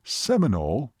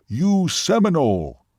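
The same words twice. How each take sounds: First: Puzzled, rising question. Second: Slow, high, emphatic declaration. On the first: Waitress repeats the Seminole's word back to him, puzzled. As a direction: echo it back, not understanding. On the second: Seminole tells waitress what she is, emphatic. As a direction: pronounce it slowly and with force. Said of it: "he said emphatically". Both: A narrator's reading.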